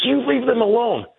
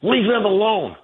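First: Much higher, pushier mock of her repeat; shrill mock insistence. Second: Mocking her retort. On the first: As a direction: raise her voice high, insisting. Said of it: "She goes". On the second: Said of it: "turns around and says".

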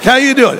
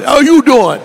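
First: Cocky New York mouse, pitched up; high-pitched New York swagger; New York accent. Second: Louder, punchier New York mouse, YOU hit high; brash New York greeting, punch "you"; high, cocky New York swagger; New York accent. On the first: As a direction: greet them like a brash New Yorker. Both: Acted. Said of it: "Like a New York mouse".

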